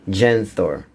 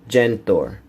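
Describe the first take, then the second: No difference in how they are said.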